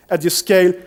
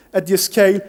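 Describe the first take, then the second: No difference in how they are said.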